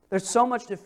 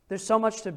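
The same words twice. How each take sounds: The two takes are said the same way.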